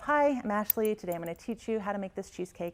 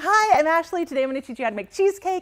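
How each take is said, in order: First: It is said flatly with little energy. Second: It is said excitedly with lots of energy.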